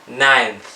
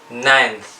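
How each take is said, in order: Both takes have the same delivery.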